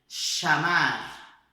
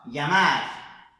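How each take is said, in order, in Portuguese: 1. Começa com um som de sh. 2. Começa com um som suave, parecido com ly. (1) "A Argentina é som de C H do português" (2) "esse é o som então feito na Espanha ... é um L H meio que pela metade"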